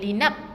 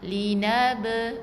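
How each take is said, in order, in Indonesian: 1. Huruf b terakhir dihentikan begitu saja tanpa dilepaskan. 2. Huruf b terakhir dilepaskan dengan sedikit membal. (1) "bukan linab. Ah, tersekat bacaannya" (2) "dengan lantunan eh? Detakan sedikit"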